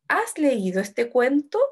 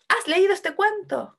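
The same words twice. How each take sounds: First: Slow question, lifting at the end of "cuento"; tono de pregunta. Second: High exclamation, falling on "cuento"; exclamación. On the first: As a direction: ask "Has leído este cuento" with a final rise. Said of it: "Es una pregunta". (pregunta lenta, "cuento" sube al final) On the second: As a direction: exclaim it from a high start, stressing "leído". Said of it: "o está exclamando algo". (exclamación aguda, "cuento" baja al final) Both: Shown as a demonstration.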